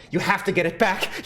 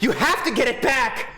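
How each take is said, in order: First: Said in the usual way. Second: Higher, louder, pressing harder; insistent urging. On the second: Acted. Urging Siffrin to reclaim home, louder and higher. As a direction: push the demand harder.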